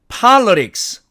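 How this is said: It is said with an American pronunciation. "미국식으로 분절을 하니까"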